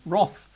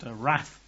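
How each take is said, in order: First: The word is said with a British pronunciation. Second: The word is said with an American pronunciation. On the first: "Over here, across the pond, we say wrath" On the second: "not wrath"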